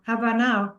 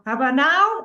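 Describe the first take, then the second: First: Said in the usual way. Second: Insistent louder nudge. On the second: Retold or imitated. Universe pushing, final time.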